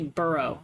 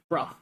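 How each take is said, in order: First: It is said in an American accent. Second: It is said in a British accent, clipped short.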